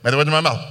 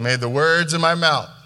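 First: It is said quickly, rushed through. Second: It is said slowly and deliberately.

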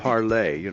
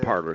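First: The name ends with an 'ay' sound. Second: The name ends with an 'er' sound. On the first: This is the original French pronunciation. "it's actually Parlay" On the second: This is the anglicized everyday pronunciation. "But we're calling it Parler"

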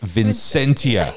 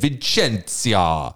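First: The name is said with English-style sounds. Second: The name is said with Italian-style sounds. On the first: The speaker calls it right. "no, it's Vincentia" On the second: The speaker calls it wrong. "I went full Italian"

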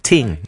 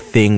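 First: The word begins with a plain t sound. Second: The word begins with a th sound. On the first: "we'll say ting. That's just a Jamaicanism" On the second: "instead of saying thing"

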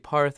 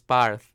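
First: The name is said casually, with less enunciation. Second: The name is said with fuller, more enunciated sounds. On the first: The speaker calls it wrong. "I say Parth" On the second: The speaker calls it right. "but it's Parth"

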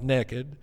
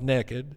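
First: It is said in a Southern US accent. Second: It is said in a Southern US accent.

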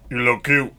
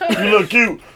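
First: It is said in a different, put-on voice. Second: It is said in his normal voice.

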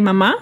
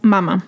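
First: The stress is on the last syllable. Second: The stress is on the first syllable. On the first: It means mom. "if you take out the accent in mama" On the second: It means breast. "it becomes mama. So mama okay. is like breast"

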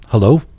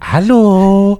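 First: It is said short and plain. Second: It is said drawn out and dramatic.

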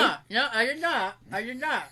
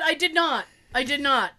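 First: It is said muffled, as with mouth held open. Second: It is said in a normal, clear voice.

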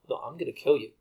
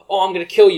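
First: It sounds like a serious, menacing threat. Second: It sounds like a playful, joking threat.

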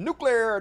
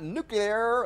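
First: The word is said as nu-clear. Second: The word is said as nu-cu-lar. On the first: The speaker calls it right. "for saying nuclear" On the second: The speaker calls it wrong. "not nuclear"

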